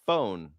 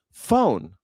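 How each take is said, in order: First: Said in the usual way. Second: "Phone" drawn out in a Southern accent. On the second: Shown as a demonstration. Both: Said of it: "people in the South can't say phone".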